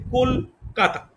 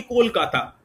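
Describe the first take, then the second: First: Kolkata broken in two, কল, then কাতা; split into syllables. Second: Said in the usual way. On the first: Shown as a demonstration. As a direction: pause between কল and কাতা to show two syllables. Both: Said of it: "দুটি পদাংশ".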